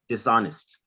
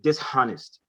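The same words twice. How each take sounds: First: The h sound is silent. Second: The h sound is pronounced. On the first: The speaker calls it right. "that H is silent" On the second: The speaker calls it wrong. "we are not saying dishonest"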